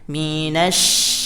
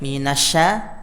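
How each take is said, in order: First: The sh sound is drawn out with breath. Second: The sh sound is short, with little breath. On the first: The speaker calls it right. "huruf shinnya dihembuskan" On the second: The speaker calls it wrong. "Jadi tidak minasya"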